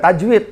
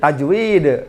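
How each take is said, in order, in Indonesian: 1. Kata itu diucapkan dengan bunyi bahasa Indonesia sehari-hari. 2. Kata itu diucapkan dengan bunyi huruf Arab yang cermat.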